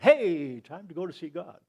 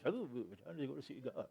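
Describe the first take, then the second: First: It is said cheerfully and eagerly. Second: It is said fearfully and reluctantly.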